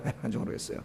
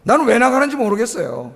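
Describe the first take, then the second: First: Breathy whisper, repeating the complaint; whispered aside. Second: Said in the usual way. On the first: Shown as a demonstration. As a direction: drop to a whisper for the echo. (속삭이듯 되뇌는 말)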